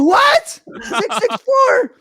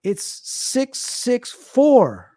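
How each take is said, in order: First: Very high, stretched-out mock shriek; re-enacted kid's panic, voice way up; panicked disbelief. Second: Very slow, each number stretched apart; retold slow, deliberate announcement; drawn-out reveal. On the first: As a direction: screech the numbers back in horror. Retold child's panicked reaction to reveal. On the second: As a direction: deliver the prankster dad's verdict with long suspense. Joker dad's slow mock-grave reveal.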